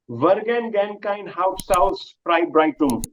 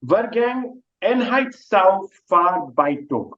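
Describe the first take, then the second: First: Vergangenheitsaufarbeitung run together quickly; said fast. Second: Vergangenheitsaufarbeitung slow, syllable by syllable; over enunciating. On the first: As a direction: rattle off Vergangenheitsaufarbeitung at normal speed. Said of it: "If you say it fast". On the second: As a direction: spell out Vergangenheitsaufarbeitung slowly and carefully. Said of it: "let me say it slowly". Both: Shown as a demonstration.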